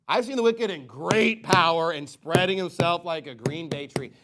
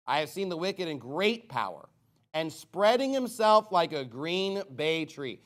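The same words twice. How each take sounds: First: Louder, pointed second reading of the verse; emphatic reread. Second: Said in the usual way. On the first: Shown as a demonstration. Preacher rereads the verse to listeners, louder and pointed. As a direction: hammer the verse home this time. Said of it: "This is what you call the New World Order". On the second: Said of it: "repeated reading".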